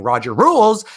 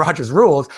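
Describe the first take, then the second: First: "Roger Rules" with the s of Rogers dropped, higher and louder; run-together "Roger Rules". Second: Said in the usual way. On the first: Shown as a demonstration. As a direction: punch out "Roger Rules" as a cheer, no s after Roger. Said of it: "if you say it really fast".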